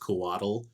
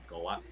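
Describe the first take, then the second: First: The ending sounds almost like the word waddle. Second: The ending does not sound like the word waddle. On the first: "with like almost like you're saying waddle. That's fine" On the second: "if you wanted it to be more accurate"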